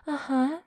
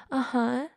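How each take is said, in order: Both takes have the same delivery.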